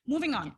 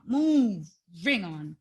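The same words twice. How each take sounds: First: Said in the usual way. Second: "Moving on" stretched out slowly, lower and final; slow drawn-out moving on. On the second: Shown as a demonstration. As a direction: drag "Moving on" out like closing the topic for good.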